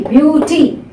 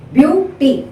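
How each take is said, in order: First: Said in the usual way. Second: "Beauty" split as BEAU, then ty; syllable by syllable. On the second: Shown as a demonstration. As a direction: break "Beauty" into two separate syllables. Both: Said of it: "Two syllable word".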